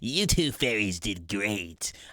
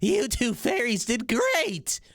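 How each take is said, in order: First: The voice is pitched lower. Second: The voice is pitched very high.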